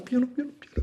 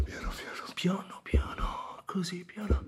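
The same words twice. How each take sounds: First: High, anguished plea to go gently; high pleading cry; pained pleading. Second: Soft crying whisper; whispered plea. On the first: Begging for gentleness. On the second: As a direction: barely breathe the plea through tears. Pain fading, begging softly. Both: Acted.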